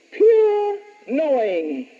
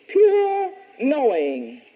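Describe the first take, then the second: First: Slow, "pure" drawn out; very slow dictation, stretch "pure"; dictating. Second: Slow repeat, "Pure" lighter; slow dictation repeat, "Pure" lighter; dictating. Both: Shown as a demonstration. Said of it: "Number two".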